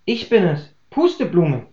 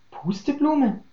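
First: Said in the usual way. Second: High, much softer startled friend voice; stunned that she is standing there; startled question. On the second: A narrator's reading. Tulpe behind the door hears her old friend's name, startled.

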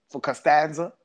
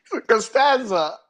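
First: Imitating a mildly puzzled "Costanza?" with a lift at the end; puzzled question. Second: Squeaky, much higher "For Costanza?" through laughter; laughing retelling. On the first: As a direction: ask "For Costanza?" as if the name makes no sense. Retold puzzled question, first take. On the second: Retold or imitated. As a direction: retell it barely holding in the laugh. Same quote retold, laughing.

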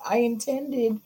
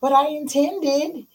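First: Defensive excuse. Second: High whiny protest; whiny excuse. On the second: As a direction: plead the excuse high and slow. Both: Pretend. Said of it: "You can intend a lot".

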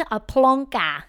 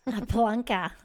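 First: Louder, drawn-out Scottish "plonker"; exaggerated mock Scottish. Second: A touch of mock Scottish on "plonker"; mimicking Scottish accent. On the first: Host savouring guest's Scottish slang, exaggerated mock Scottish. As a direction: relish the Scottish word, big and slow. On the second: Host echoing guest's Scottish slang, mimicking Scottish accent. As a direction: lightly imitate a Scottish word.

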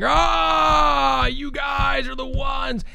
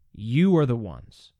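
First: High, loud, veins-out shouted accusation; pounding shout. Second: Slow, calm, steady accusation. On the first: Preacher mocking an angry Peter: furious shouted accusation. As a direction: hammer it at them like a ranting preacher, slow. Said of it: "gotta be pounding ... veins coming out of his neck". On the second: Preacher showing how Peter could speak: calm and measured. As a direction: say it gently but firmly, no force. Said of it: "He could very calmly be saying". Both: Shown as a demonstration.

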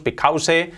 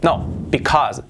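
First: "because" ending in a Spanish s-e sound; wrong take of because; common mistake. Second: Because said slowly with a clear z ending; careful English because; correct pronunciation. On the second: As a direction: stretch "because" and end on a buzzing z. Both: Shown as a demonstration. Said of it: "esa palabra que decimos because".

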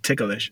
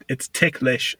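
First: "ticklish" as tick-a-lish; three-syllable mispronunciation. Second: "ticklish" in two syllables, tick-lish; two-syllable pronunciation. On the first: Showing the common error, "ticklish" as tick-a-lish. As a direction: add an extra vowel in "ticklish" after the k. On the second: Correcting a common error, "ticklish" as tick-lish. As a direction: say "ticklish" with no vowel after the k. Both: Shown as a demonstration. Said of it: "a lot of people say ticklish".

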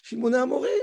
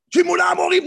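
First: "Shimona Amorim" said evenly and level, with no anger; calm reading. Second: "Shimona Amorim" read high and loud, like an angry outburst. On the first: Teacher gives the correct, calm reading of Moses. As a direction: read "Shimona Amorim" as a cool, measured reproach. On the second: Teacher acts out the wrong, angry reading of Moses. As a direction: bark "Shimona Amorim" as a furious rebuke. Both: Shown as a demonstration. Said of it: "non, c'est pas comme ça qu'il faut lire".

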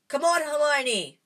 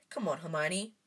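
First: Louder, higher shout of Come on, Hermione!; loud call. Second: Said in the usual way. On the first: A narrator's reading. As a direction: yell up for Hermione to jump. Urging friend to jump.

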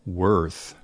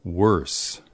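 First: Worth, tongue out for the th; option A. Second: Worse ending in a hissed /s/; worse, closing on a sharp s; option B. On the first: Teacher reading choice A, worth with a th ending. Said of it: "Is the answer A". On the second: Teacher reading choice B, worse with an s ending. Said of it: "or B". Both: Shown as a demonstration.

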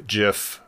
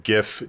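First: "gif" said as jiff; "gif" starting like gem; soft-g pronunciation. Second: "gif" said with a hard g; "gif" starting like give; hard-g pronunciation. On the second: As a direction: say "gif" with g as in gift. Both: Shown as a demonstration. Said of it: "disagreement on, uh, pronunciation".

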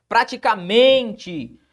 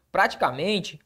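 First: "praticamente" slowly, MEN stretched and emphasized; stress on MEN. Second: Said in the usual way. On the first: Shown as a demonstration. Teacher showing the class the tonic syllable, stressed MEN in "praticamente". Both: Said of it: "a sílaba tônica é o men".

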